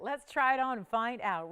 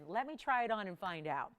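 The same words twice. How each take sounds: First: A touch louder and keener, selling the try-on; eager sales push. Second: Said in the usual way. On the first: Shown as a demonstration. Host to viewers, keen try-on pitch, a bit louder. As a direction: lean in, keen to show it. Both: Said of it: "I have not tried this one on yet".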